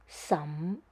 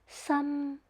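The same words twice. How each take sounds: First: The pitch rises from low to high. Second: The pitch stays high and level. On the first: "tone number two is a raising tone from tone level two to number five" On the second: "tone number one is a flat tone in high pitch"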